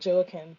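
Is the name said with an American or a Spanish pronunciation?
American. The name is said with an American English pronunciation. This is how many Americans say it. The speaker calls it wrong. "a lot of Americans will call it"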